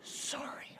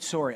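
First: A winded, voiceless little sorry; exhausted child whispering sorry; breathless whisper. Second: Said in the usual way. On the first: Retold or imitated. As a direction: gasp it out with no breath left. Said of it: "He's totally out of breath". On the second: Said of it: "And he said".

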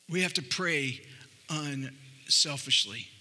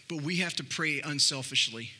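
First: "unselfishly" drawn out slowly after a pause; slow down and lean on "unselfishly"; stress on unselfishly. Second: Said in the usual way. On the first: Shown as a demonstration. Pastor repeating the point to the church, slowly stressing "unselfishly".

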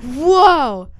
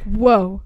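First: A shocked whoa, louder and higher. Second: Said in the usual way. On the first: Retold or imitated. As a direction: let the amazement peak. Kids react to Sirius appearing.

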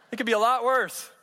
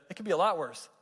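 First: "worse" hit higher and louder; punchline stress. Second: Said in the usual way. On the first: Shown as a demonstration. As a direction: land the word "worse" hard as the punchline.

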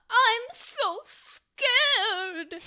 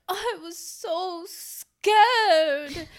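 First: Put-on breathy, high old-movie damsel; trembling classic film heroine; old Hollywood starlet. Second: High, slow swooning damsel line; old Hollywood starlet. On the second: Retold or imitated. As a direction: gasp it like a 1950s heroine. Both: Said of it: "they all talk like this".

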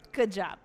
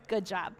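The two takes are said the same way.

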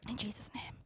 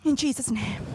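First: Hushed, breathy prayer whisper. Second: Said in the usual way. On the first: Acted. Preacher whispers a prayer to God. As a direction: breathe the words like a private prayer.

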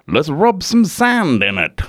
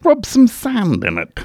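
First: Put-on a rough try at an Australian accent; self-mocking bad Aussie impression. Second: Pitched-up mock Australian, leaning in; Australian accent. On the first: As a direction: play Steve Irwin, Aussie twang, a bit off. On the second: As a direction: belt it out like a keen Crocodile Hunter. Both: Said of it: "My Australian accent's fucking terrible".

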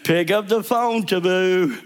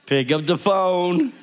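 First: Higher and more urgent, pressing the point; insistent repeat. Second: Slow, calm instruction with a rising end; gentle command. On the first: The Holy Spirit presses the pastor to call, insisting. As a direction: say it again and insist this time. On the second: The Holy Spirit gently tells the pastor what to do. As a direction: say it patiently, once. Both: Retold or imitated.

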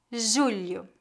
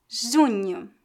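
First: Julho, JU-lho with a palatal L. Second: Junho, JU-nho with a palatal nasal. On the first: Teacher contrasts it with junho for repetition, clear and soft. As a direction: say "Julho" with LH close to L plus I. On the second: Teacher models the word for students to repeat, clear and careful. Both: Shown as a demonstration. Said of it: "Repita depois de mim".

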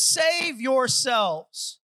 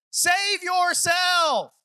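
First: "Save yourselves" said very slow at normal volume; slow plain statement. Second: "Save yourself" shouted high and very slow; drawn-out shout. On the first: Peter's simple words to the crowd, slow and calm. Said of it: "in simple words he says". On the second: Peter's final plea. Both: Acted.

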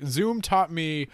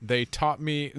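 First: Taught slow and higher; stress on taught. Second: Said in the usual way. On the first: Shown as a demonstration. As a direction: lean hard on taught.

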